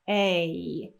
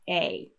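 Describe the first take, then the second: First: The vowel ends with a long, exaggerated glide. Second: The vowel ends with a brief, subtle glide. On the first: "if I was going to exaggerate it, it would sound like this" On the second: "naturally, we just hear a very subtle glide there at the end"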